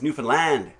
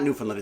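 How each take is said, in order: First: The last syllable rhymes with grand. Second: The last syllable does not rhyme with grand. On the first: The speaker calls it right. "it's Newfoundland. Because isn't it grand, Newfoundland" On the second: The speaker calls it wrong. "it's not Newfoundland"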